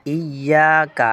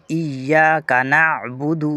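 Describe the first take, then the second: First: ایاک with a short clipped kaf, not stretched. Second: ایاک نعبد with the kaf of ایاک stretched long; wrong drawn-out kaf. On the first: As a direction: say ایاک without pulling the ک. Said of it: "اس کاف کو بالکل نہیں کھینچنا". (ایاک میں کاف بغیر کھینچے) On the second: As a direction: drag out the ک in ایاک slowly. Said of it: "یہ غلط ہے". (ایاک میں کاف کھینچ کر غلط ادائیگی) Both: Shown as a demonstration.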